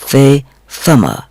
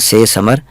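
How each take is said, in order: First: It begins with a soft 'th' sound. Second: It begins with a plain 's' sound. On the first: The speaker calls it right. "वो है से समर" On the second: The speaker calls it wrong. "जैसे कि उर्दू में कहते हैं से समर, वो गलत है"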